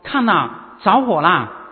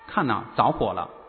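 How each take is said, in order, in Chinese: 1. 大声喊出来，很急切。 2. 说得平平淡淡，不慌不忙，没有紧迫感。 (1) "我如果像约翰这样大声的呼吁" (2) "我这么平平淡淡的说"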